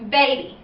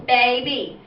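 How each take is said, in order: First: Said in the usual way. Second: Put-on baby said as ba-by in two parts; syllable split. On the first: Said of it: "when I put that together". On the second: Shown as a demonstration. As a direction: break baby into two beats. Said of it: "two parts to that word".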